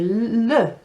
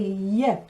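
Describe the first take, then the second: First: The double L is said like an English L. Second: The double L is said like an English Y. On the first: The speaker calls it wrong. "we say le, don't we? Without the stutter. But they don't say that" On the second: The speaker calls it right. "They say yeah"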